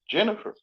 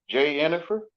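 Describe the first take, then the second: First: The first letter is blended into the word. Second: The first letter is said as its letter name.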